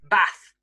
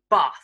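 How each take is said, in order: First: It is said in a northern English accent. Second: It is said in a southern English accent. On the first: "in the north" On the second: "in the south"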